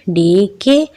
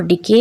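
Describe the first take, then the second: First: डी के as two separate, stretched syllables. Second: Said in the usual way. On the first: Shown as a demonstration. Teacher showing the two syllables of डी के, syllable by syllable. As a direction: split डी from के with a small gap. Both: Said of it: "इसके टू syllables हैं".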